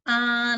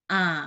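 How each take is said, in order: First: The pitch stays high and level. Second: The pitch dips down low. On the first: "nada satu" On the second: "nada ketiga"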